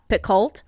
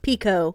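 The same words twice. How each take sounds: First: The name is said the speaker's long-assumed way. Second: The name is said the author's own way. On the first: This is how the speaker always assumed it was said. The speaker calls it wrong. "not Picoult" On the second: This is how the author says her own name. The speaker calls it right. "her name is Picoult"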